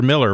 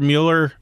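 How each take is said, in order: First: The name is said with a short 'mill' sound. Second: The name is said with a 'mew' sound. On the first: The speaker calls it right. "or Miller, rather. I'm sorry, Herb. You spell it Mueller, but pronounce it Miller" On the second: The speaker calls it wrong. "and Pastor Herb Mueller"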